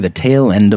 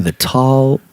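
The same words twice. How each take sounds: First: "tail" said clearly with the ay vowel; corrected word. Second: "tall" said as tawl, a slip for tail; misread word. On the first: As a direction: fixes the slip and says "tail end" properly. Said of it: "or sorry". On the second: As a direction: reads "tall" with the open aw vowel by mistake. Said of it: "or sorry, I already ruined it". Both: Real, not acted.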